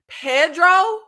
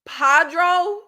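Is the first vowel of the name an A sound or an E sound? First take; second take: E sound; A sound. First: The first vowel is said as an E sound. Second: The first vowel is said as an A sound. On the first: The speaker calls it wrong. "not a E" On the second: The speaker calls it right. "it's a A"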